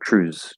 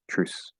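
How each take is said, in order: First: The word ends with a z sound. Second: The word ends with an s sound. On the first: "with a z sound if it's voiced" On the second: "it's going to sound just like truce"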